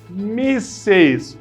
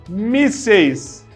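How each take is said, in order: Both takes have the same delivery.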